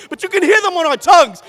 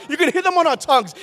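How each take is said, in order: First: The first take, louder, ringing out; proclaimed. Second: Said in the usual way. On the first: Acted. Poet to the slam crowd, a loud first proclamation. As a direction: declare it to the whole room. Poet repeats line for emphasis.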